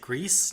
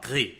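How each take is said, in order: First: The name is said with an English pronunciation. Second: The name is said with a French pronunciation. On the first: "I want to say Grease" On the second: "I want to say it all, all French"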